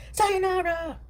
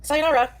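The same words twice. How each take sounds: First: Higher, slow, stretched sayonara through a laugh; "Sayonara" drawn out high and slow while laughing. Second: Said in the usual way. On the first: Shown as a demonstration. Streamer signing off to chat with a laughing, stretched "Sayonara". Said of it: "Sayonara, said a second time". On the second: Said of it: "Sayonara, then said again".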